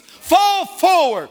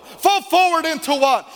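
First: "Fall forward" stretched slow and shouted high; stress on fall forward. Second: Said in the usual way. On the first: Acted. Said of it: "learn how to fall forward".

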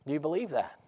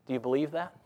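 First: Believe that falling, pressing the point; pressing again. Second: Believe that rising as a true question; asking question. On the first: Preacher repeats it to the congregation, falling firmly. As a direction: drop the tune on "believe" to challenge. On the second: Preacher asks the congregation, believe rising. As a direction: ask "believe" with a lift at the end. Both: Shown as a demonstration.

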